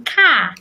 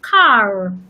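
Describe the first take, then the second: First: The final r sound is left silent. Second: The final r sound is clearly pronounced. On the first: The speaker calls it right. "I will say car" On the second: The speaker calls it wrong. "and not car"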